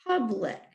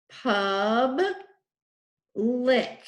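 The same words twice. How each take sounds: First: Said in the usual way. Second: "Pub, lick" as two separate beats; split into syllables. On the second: Shown as a demonstration. Teacher showing the two syllables in public, split apart. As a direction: pause clearly between "Pub" and "lick". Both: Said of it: "What are the two syllables in public?".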